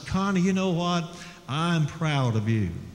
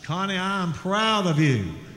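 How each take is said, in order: First: It is said a little louder than normal. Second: It is said very loudly.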